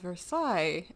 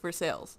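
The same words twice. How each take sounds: First: It is said with the French pronunciation. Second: It is said like the English words 'for sales'. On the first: This is the name of the place in France. "in France it's called Versailles" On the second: This is the name of a town in the United States. "Kentucky or Tennessee it's Versailles"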